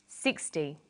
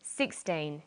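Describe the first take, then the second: First: SIXTY low, SIX strong and -ty light; SIXTY with a short unstressed ending; first-syllable stress. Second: Put-on SIXTEEN said low and careful with a full, long teen; syllable stress demo. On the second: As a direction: model SIXTEEN softly, both syllables clear. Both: Shown as a demonstration. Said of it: "first syllable in a number is stressed".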